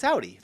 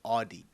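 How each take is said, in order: First: Audi said as OW-dee; own pronunciation. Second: Audi said as AW-dee; unfamiliar pronunciation. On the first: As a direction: insist on Audi with 'ow' as in loud. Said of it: "That's what we say". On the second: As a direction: say Audi with 'aw' as the first vowel. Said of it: "never heard anyone call it". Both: Shown as a demonstration.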